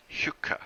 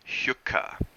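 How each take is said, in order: First: "Hyuka." whispered, "hyoo-ka"; island pronunciation. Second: "Hyuka." breathy, voiceless "shooka"; island pronunciation. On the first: Narrator repeating the driver's word for the hook. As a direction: breathe out "Hyuka." voiceless. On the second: Narrator showing how the driver says "hook". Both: Shown as a demonstration. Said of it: "He pronounced that last word".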